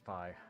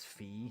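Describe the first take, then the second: First: The vowel does not sound like 'mi'. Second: The vowel sounds like the one in 'mi'. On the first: This is how the game itself says the name. The speaker calls it right. "they call her Fi, so I guess it's Fi" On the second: This was the old, mistaken way to say it. The speaker calls it wrong. "For years, I pronounced this character's name as Fee. You know, like, you know, Do, Re, Mi, Fi"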